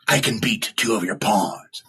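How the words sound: The voice falls at the end like a statement.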